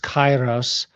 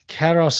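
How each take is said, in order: First: It uses the ancient Greek pronunciation. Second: It uses the modern Greek pronunciation. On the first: The speaker calls it right. "It's Kairos" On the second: The speaker calls it wrong. "It's not Keros is modern Greek"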